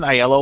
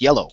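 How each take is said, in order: First: It begins with an 'eye' sound before 'yellow'. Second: It sounds exactly like the word 'yellow'. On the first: The speaker calls it wrong. "It isn't Aiello" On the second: The speaker calls it right. "it's just like the color yellow"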